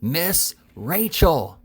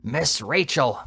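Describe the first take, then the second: First: Very slow, higher and louder "Miss Rachel!", each syllable stretched; roaring. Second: Mild mock shout. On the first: Told to speak louder, the fat boy roars the name into her ear. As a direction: bellow the name slowly into a deaf ear. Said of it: "roared the fat boy". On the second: The fat boy half-shouts the name into the old lady's ear. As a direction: call the name without much force. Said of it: "shouted in the old lady's ear". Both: A narrator's reading.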